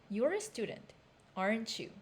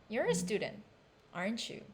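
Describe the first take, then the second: The two takes are said the same way.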